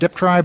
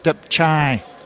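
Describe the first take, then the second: First: The second syllable starts with a 'tr' sound. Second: The second syllable starts with a 'ch' sound. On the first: The speaker calls it wrong. "most people say Deptry" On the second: The speaker calls it right. "in fact it's Depchai, chai like a ch"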